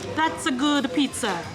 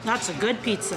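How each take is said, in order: First: It is said in a put-on Italian accent. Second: It is said in the speaker's ordinary accent.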